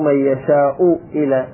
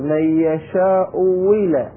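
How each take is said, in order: First: The second glottal stop is fully pronounced. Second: The second glottal stop becomes a w glide. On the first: "مو" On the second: "جاء أيضا الواو"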